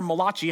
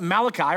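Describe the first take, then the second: First: The name is said in a mock Italian accent. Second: The name is said in a plain English accent.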